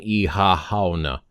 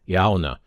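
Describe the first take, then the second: First: The syllables are kept apart with an h sound. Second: The syllables run smoothly together without breaks. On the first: "Even though I'm sure there's an Ihahauna" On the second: "It sounds like it flows together"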